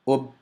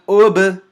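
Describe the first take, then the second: First: The final b closes and the sound stops. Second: The final b releases with a slight echo. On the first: The speaker calls it wrong. "Now I'm going to do it incorrectly" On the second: The speaker calls it right. "Correctly first"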